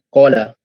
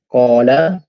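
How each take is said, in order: First: The first vowel is cut short. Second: The first vowel is held long. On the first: The meaning changes to fried snacks. The speaker calls it wrong. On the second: It means 'he said'. The speaker calls it right.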